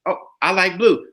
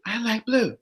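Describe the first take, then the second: First: Plain-voiced prompt; leading example. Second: Higher, softer repeat; obedient echo. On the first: Man feeding a woman her opinion, matter-of-fact. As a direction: offer it as the line to copy. Modelling the line to be echoed. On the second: Acted. Woman echoing the opinion given her, softly obedient. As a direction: parrot it back softly in higher pitch.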